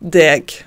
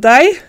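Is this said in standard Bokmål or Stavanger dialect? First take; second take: Stavanger; Bokmål. First: It is said in Stavanger dialect pronunciation. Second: It is said in standard Bokmål pronunciation. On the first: "på Stavanger-dialekt så er det deg" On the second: "på bokmål så er det deg"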